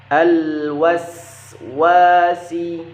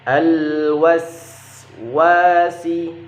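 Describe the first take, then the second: No difference in how they are said.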